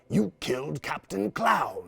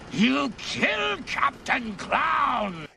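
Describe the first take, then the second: First: It is said in his normal voice. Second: It is said in a Joker voice.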